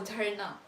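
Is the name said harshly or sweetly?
sweetly. The name is said sweetly and lovingly.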